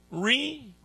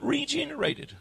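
First: Regenerated broken into RE, GENE, RATED with long pauses; stressed syllable by syllable. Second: Said in the usual way. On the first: Shown as a demonstration. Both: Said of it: "I like to stress this word".

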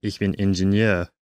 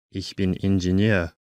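Both takes have the same delivery.

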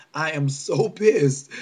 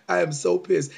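First: Drawn-out angry stress on "so pissed"; slow, emphatic. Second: Said in the usual way. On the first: Real, not acted. Ranting to viewers, dragging out "so pissed" in anger. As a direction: lean hard and slow into "so pissed".

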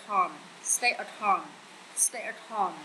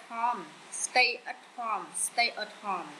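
No difference in how they are said.

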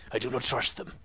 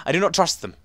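First: Put-on voice for reading a note aloud; character voice. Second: Said in the usual way. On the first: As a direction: read it out in a slightly lowered character voice. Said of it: "I need to do this in a voice". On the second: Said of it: "wait, I need to do this in a voice".

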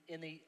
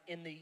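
The two takes are said the same way.

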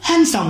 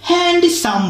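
First: "হ্যান্ডসাম" with silent d, "han-sam"; correct pronunciation. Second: "হ্যান্ডসাম" with the d sounded, "hand-i-sam"; pengucapan salah. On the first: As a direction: drop the d from "হ্যান্ডসাম". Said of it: "এটা কিন্তু হ্যান্ডসাম হবে". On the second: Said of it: "বলবেন না, অনেকে কিন্তু হ্যান্ডসাম বলে". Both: Shown as a demonstration.

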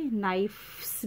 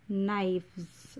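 First: "नाइफ्स" said as "nai-fffs", with hard f; f-s plural. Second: "नाइफ्स" drawn out slowly as "naivzz"; v-sound plural. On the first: Teacher showing the wrong plural, "नाइफ्स" with f-s. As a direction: stress the unvoiced f-s in "नाइफ्स". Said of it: "भी नहीं बोलेंगे". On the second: Teacher modelling the plural, slow "नाइफ्स" with a v. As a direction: stretch "नाइफ्स" with v in place of f. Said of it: "okay, व". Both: Shown as a demonstration.

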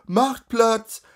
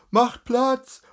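First: High, loud repeated crier's call; crier's shout. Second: High, loud street crier's call; crier's shout. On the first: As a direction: bellow again to part the crowd. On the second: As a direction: bellow it to clear the road. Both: Acted. A crier shouting at the crowd to make way, loud call.

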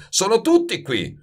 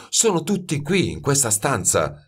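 First: Higher, exasperated mild bellow. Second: Understated, eager insistence; insistent apprentice. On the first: Master concedes the aromas are here, bellowing. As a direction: throw it back exasperated, pitch up. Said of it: "muggì Baldini". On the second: Youth points out the aromas to master, insistent. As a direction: press the point without raising the voice. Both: A narrator's reading.

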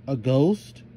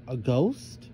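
First: A ghost called out with a lifting pitch; cried out. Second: Said in the usual way. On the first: A narrator's reading. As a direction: cry out a ghost in alarm. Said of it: "cried Melissa". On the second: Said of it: "Alleged Melissa".

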